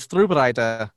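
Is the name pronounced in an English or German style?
German. The name is said with German-style sounds. The speaker calls it right. "that's a more authentic way to pronounce their name"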